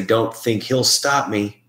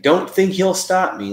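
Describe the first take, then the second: First: Slow, drawn-out replay of a heard voice; imitating the recording. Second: Much higher mock of the heard voice; high imitation. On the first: Replaying a spirit box phrase for the group, slowly. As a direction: drag it out word by word like a faint recording. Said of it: "I hear someone say". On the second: Re-imitating the spirit voice for the group, pitched high. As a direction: pitch it way up like a thin voice on tape.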